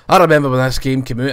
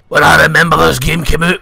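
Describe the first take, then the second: First: It is said in his natural voice. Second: It is said in a harsh put-on voice.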